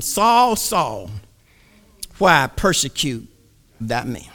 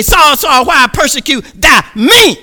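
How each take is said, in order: First: Low, hushed divine voice; a quiet, solemn heavenly call. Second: Higher, louder heavenly call; a raised divine summons; God calling out. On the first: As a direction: speak softly as God from above. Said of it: "heard a voice saying unto him". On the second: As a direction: call him out forcefully. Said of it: "He say". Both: Acted.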